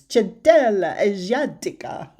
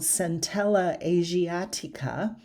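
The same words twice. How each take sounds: First: The name is pronounced with Latin or Italian sounds. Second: The name is pronounced with English sounds. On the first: "in Latin or Italian, it's" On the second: "in English, it's called"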